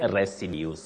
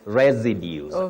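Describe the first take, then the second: First: The second s is a voiceless s sound. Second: The second s is a voiced z sound. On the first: The speaker calls it wrong. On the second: The speaker calls it right. "the second one takes what we call the voiced sound Z"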